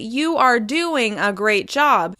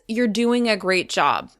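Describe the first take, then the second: First: 'You are' is said as two separate words. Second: 'You are' is contracted into one syllable. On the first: The speaker calls it wrong. "it can make your speech sound choppy or robotic" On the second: The speaker calls it right. "When you say it normally"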